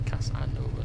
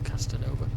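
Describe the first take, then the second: First: The name is said without a 't' sound. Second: The name is said with a 't' sound. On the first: The speaker calls it right. "Essentially, Casanova" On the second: The speaker calls it wrong. "not Castanova"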